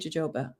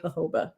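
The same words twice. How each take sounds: First: The word begins with a J sound. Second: The word begins with an H sound. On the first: "Or do you say jojoba?" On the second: "like the J makes the H sound, I say jojoba"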